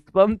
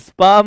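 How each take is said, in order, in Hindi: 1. इस शब्द में 'uh' स्वर है। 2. इस शब्द में 'ah' स्वर है। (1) "स्पम थोड़ी होता है" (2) "स्पाम होता है भाई"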